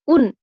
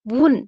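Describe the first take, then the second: First: The word starts directly with a vowel. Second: The word starts with a w sound. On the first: This is the standard form. "हम क्या लिखते हैं?" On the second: This is the Karkhandari dialect form. "ये वुन बोलते हैं।"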